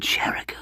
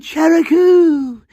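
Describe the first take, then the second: First: The name Cheriku whispered, unvoiced; whispered instead of yelled. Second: Long, high drawn-out cry of a name; dramatic yell. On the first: Comically whispering the name he claims he yelled. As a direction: breathe the name Cheriku, no voice at all. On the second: Pretend. Yelling to his love burning at the stake, a dramatic high cry. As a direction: cry the name out slow into the sky, high and loud. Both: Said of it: "And I yelled".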